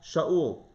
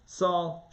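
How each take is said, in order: First: Shaul said the Hebrew way, sh then a-ul; Hebrew name. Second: Said in the usual way. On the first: Shown as a demonstration. Teacher giving the king's Hebrew name, Hebrew pronunciation. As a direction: give Shaul its Hebrew sound, not Saul.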